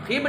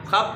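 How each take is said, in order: First: खिब with a short i; mispronunciation demo. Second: खब with a short a; correct pronunciation. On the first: Teacher isolating the wrong syllable, mispronunciation demo. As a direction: say खिब as "khib". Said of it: "खिब नहीं पढ़ना". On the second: Teacher isolating the right syllable, correct pronunciation. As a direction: say खब as "khab". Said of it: "खब पढ़ना है". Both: Shown as a demonstration.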